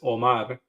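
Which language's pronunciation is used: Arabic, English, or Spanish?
Spanish. The name is said with a Spanish pronunciation. "In Spanish is"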